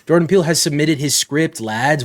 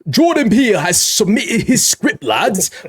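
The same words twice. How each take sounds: First: It is read in his normal accent. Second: It is read in a put-on British accent.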